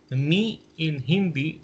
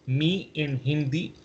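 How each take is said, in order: Both takes have the same delivery.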